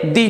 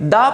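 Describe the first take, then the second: First: The vowel is a long 'ee' sound. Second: The vowel is a short, neutral 'uh' sound. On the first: The next word begins with a vowel sound. "कभी हम इसे दी पढ़ते हैं" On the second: The next word begins with a consonant sound. "कभी हम इसे दा पढ़ते हैं"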